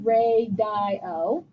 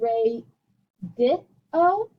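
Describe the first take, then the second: First: The middle vowel sounds like 'eye'. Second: The middle vowel sounds like 'ih'. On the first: "But I don't say" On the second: "And I don't say"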